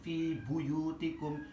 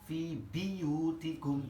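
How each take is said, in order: First: The second word begins with the syllable bu. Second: The second word begins with the syllable bi. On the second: "bi bukan bu"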